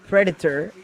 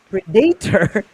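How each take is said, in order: First: The word is said with an American pronunciation. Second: The word is said with a Filipino pronunciation. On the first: "'cause Predator is American" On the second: "Predator is Filipino"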